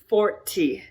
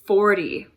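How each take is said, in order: First: The middle t is a clear t. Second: The middle t is a soft flap.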